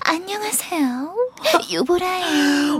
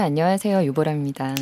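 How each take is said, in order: First: It is said in a cutesy, charming character voice. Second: It is said in her ordinary, plain voice.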